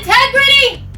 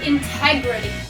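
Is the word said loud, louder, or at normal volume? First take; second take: louder; normal. First: The word is said even more loudly. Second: The word is said at normal volume. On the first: "One more time, louder" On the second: "practice saying it with me"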